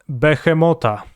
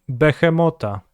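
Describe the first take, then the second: The two takes are said the same way.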